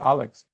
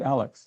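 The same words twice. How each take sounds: First: The name is said with a Russian accent. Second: The name is said in a plain American accent.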